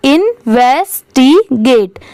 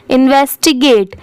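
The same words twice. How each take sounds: First: इन्वेस्टिगेट slowly split as इन-वेस-टी-गेट; syllable by syllable. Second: Said in the usual way. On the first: Shown as a demonstration. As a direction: sound out इन्वेस्टिगेट part by part. (इन्वेस्टिगेट को धीरे-धीरे टुकड़ों में बोलें) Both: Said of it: "पूरा मिला देंगे तो क्या हो जाएगा".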